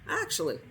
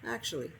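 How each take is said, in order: First: It is said in a put-on character voice. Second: It is said in the narrator's normal voice.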